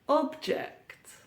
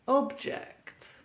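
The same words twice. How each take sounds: First: The stress is on the first syllable. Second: The same.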